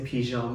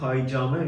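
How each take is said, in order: First: It is said in the French-style way. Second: It is said in the older Persian way. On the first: The word was re-borrowed from French. "we say pijame ... which is the French pronunciation of it" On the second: This is the original form before borrowing. "instead of saying paijame"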